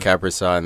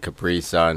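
First: It is said with an American accent. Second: It is said with a South African accent.

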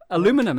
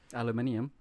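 First: The word is said in the American way. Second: The word is said in a non-American way. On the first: "That's what Americans say" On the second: "aluminium makes it sound like it's so futuristic"

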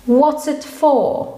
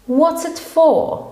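The two takes are said the same way.

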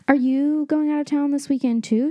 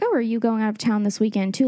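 First: It is asked in a desperate, pleading tone. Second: It is asked in a casual, nonchalant tone.

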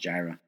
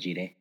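First: The name is given its English pronunciation. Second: The name is given its Spanish pronunciation. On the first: "In English, it's Jireh" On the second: "In Spanish? I think Jehová Jireh"

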